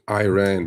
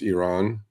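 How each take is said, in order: First: The first vowel sounds like the letter I. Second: The first vowel does not sound like 'eye'. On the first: This is how Americans say it. The speaker calls it wrong. "Americans pronouncing Iran because it's an I" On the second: This is the true pronunciation. The speaker calls it right. "truthfully, it's Iran"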